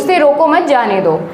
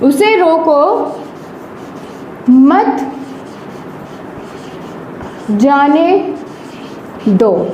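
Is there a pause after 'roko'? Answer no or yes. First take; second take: no; yes. First: It is said straight through without a pause. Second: There is a pause right after 'roko'. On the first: The meaning is unclear. "हमने बीच में कोई भी विराम चिन्ह का प्रयोग नहीं किया" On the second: The person should be stopped, not let go. "यहां पे हमने विराम चिन्ह लगा दिया है।"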